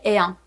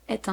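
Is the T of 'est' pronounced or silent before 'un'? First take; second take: silent; pronounced. First: The T is silent, with no link between words. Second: The T is pronounced, linking into the next word. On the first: "it's optional because I could also say Marcel est un" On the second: "we wouldn't pronounce the T of est normally, but this time we do it"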